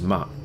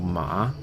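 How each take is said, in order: First: The pitch is short and unmarked. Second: The pitch rises from middle to high. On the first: "the neutral tone, which has no tone to it" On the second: "Second tone is a rising tone. It's like asking a question"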